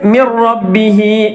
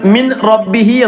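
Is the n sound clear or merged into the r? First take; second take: merged; clear. First: The n merges fully into a doubled r. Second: The n is pronounced clearly before the r. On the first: The speaker calls it right. "അങ്ങനെയല്ല ഓതേണ്ടത്, മിർ റബ്ബിഹി" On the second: The speaker calls it wrong. "ബാക്കിയുള്ള സ്ഥലങ്ങളിലൊക്കെ മിൻ റബ്ബിഹി എന്ന് ഓതാറുണ്ട്. അങ്ങനെയല്ല ഓതേണ്ടത്"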